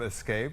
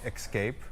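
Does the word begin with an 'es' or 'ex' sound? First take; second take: es; ex. First: The word begins with an 'es' sound. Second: The word begins with an 'ex' sound. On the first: The speaker calls it right. "instead of escape" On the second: The speaker calls it wrong. "my wife likes to say escape"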